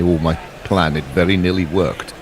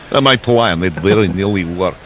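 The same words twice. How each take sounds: First: Put-on a touch of Russian accent; accidental Russian accent. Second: Hammed-up Russian accent. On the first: Commentator voicing the bowler's thought, light Russian accent. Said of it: "did that in a Russian accent". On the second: Shown as a demonstration. Commentator redoing the line for colleagues, hammed-up Russian accent. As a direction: put on a thicker Russian accent. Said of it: "There you go, that's better".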